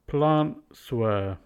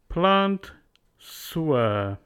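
First: A glottal stop replaces the t. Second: The t is said, then s links forward. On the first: "Add a glottal stop" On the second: "Z changes to S"

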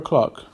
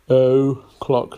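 First: The first vowel of o'clock is a weak schwa. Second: The first vowel of o'clock is a full vowel. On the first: The speaker calls it right. "Schwa sound" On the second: The speaker calls it wrong. "spot the deliberate mistake"

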